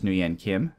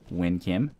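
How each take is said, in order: First: The first name does not sound like win. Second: The first name sounds like win. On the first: The speaker calls it wrong. "I keep pronouncing that wrong" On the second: The speaker calls it right. "so many letters should make the sound win"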